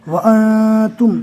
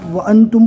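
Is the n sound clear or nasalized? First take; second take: nasalized; clear. First: The n sound is hidden in the nose. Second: The n sound is pronounced fully and clearly. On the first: "इस तरह पढ़ा जाता है" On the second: "अगर आप वअंतुम पढ़ते हैं तो उसका कोई मतलब गलत नहीं हो जाता है"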